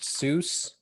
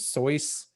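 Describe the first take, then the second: First: The vowel sounds like 'oo', rhyming with goose. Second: The vowel sounds like 'oy', rhyming with choice. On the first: This is the common way everyone says it. The speaker calls it wrong. "the name Seuss is not pronounced Seuss" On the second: This is supposedly the original way to say it. The speaker calls it right. "is actually pronounced as Soyce"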